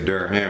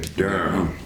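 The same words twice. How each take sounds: First: The name is said with two full syllables. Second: The name is said as one syllable, Durm. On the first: The speaker calls it wrong. "you don't say Durham" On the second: The speaker calls it right. "you say Durham. D U R M"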